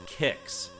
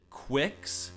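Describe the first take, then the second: First: It sounds like 'kicks' with a short i. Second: It starts with 'kw' and has a short i. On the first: "I've always pronounced the name Kicks" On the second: "some people do pronounce it Quicks"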